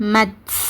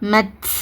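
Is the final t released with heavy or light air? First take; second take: heavy; heavy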